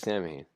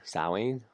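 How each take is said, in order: First: It is pronounced as spelled in English. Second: It is pronounced in the Irish way. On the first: The speaker is not Irish and uses a personal pronunciation. "I say it how it is because I'm not Irish" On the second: This is the actual Irish pronunciation. "I think is actually the pronouncing"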